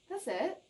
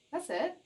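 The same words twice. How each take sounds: The two takes are said the same way.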